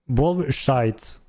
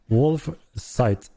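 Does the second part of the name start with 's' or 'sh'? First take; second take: sh; s. First: The second part starts with an 'sh' sound. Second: The second part starts with an 's' sound. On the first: The speaker calls it wrong. "I have difficulties pronouncing the site, so it became shite" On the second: The speaker calls it right. "No, sorry, sorry about that"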